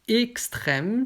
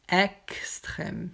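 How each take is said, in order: First: The first e is a closed vowel. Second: The first e is an open vowel. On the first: "c'est aigu" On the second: "c'est grave"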